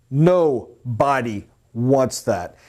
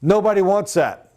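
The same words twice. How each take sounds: First: "Nobody wants that." drawn out slowly, each word weighted; slow it right down to drive it home; slow emphatic repeat. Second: Said in the usual way. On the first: Shown as a demonstration. Sales coach repeats the point to trainees, slow and emphatic.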